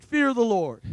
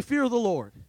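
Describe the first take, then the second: First: "Fear the Lord." said louder, with conviction; emphatic. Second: Said in the usual way. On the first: Shown as a demonstration. Preacher leading the church to say "Fear the Lord.", with conviction. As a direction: say "Fear the Lord." like you mean it. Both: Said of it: "Say it like you mean it".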